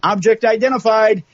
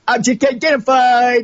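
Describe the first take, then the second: First: It is read in a plain voice. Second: It is read in a snarky voice.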